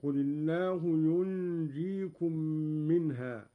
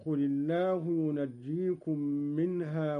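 First: "ينجيكم" said yunjeekum, noon hidden with a nasal hum; silent noon, light jeem. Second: Said in the usual way. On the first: Shown as a demonstration. ("ينجيكم" بإسكان النون وتخفيف الجيم) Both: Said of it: "بإسكان النون".

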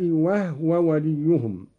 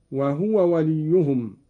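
First: «وهو» said as wahwa, with a silent ha; «وهو» short, the ha not voweled. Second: Said in the usual way. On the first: Shown as a demonstration. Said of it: "قرأ قالون بإسكان الهاء". («وهو» بإسكان الهاء) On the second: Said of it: "بإسكان الهاء".

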